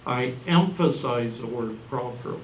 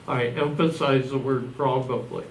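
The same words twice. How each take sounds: First: "properly" said in place of "probably", a plain misread; slip of the tongue. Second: Said in the usual way. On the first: Real, not acted. Lecturer on dowsing misreads his word as "properly". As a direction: stumble onto "properly" with the b heard as a p, unaware of the slip. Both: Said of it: "Oh, probably".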